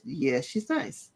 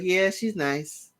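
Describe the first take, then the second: First: "Yeah, she's nice." said lower, softer and slow, truly meant; slow, sincere "Yeah, she's nice." dropped low and gentle; genuinely. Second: A flat, offhand "Yeah, she's nice." with slow, dismissive drawn-out words; slow lukewarm "Yeah, she's nice." as if not meant; fake nice. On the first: Retold or imitated. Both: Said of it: "And she genuinely says".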